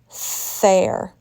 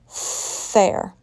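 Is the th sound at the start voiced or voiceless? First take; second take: voiceless; voiceless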